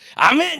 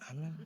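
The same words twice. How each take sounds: First: It is said loudly with strong energy. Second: It is said weakly and half-heartedly.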